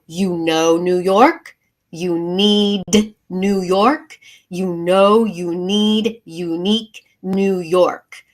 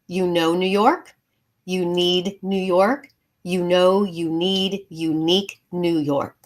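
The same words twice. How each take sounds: First: Every sound is articulated in an exaggerated, precise way. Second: The words are articulated in a relaxed, ordinary way.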